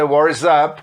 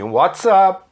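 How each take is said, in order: First: The T in 'what' is a soft R-like tap. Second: The T in 'what' is a clear T. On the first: "você pode pegar esse T aí do What virar um som meio R" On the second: "Aqui sim"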